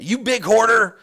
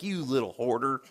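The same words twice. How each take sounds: First: Loud, high mock accusation; accusing shout. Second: Disapproving remark. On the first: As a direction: hurl the insult as a judgmental stranger. Stranger's scolding, corrected to big. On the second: Retold or imitated. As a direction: imitate a stranger judging under his breath. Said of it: "like, shaking his head".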